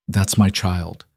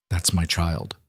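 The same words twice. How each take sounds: First: Correcting him by stressing "my"; emphasis on my. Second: Said in the usual way. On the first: A narrator's reading. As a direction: stress on "my" in "That's my child". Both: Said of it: "emphasis on the possessive".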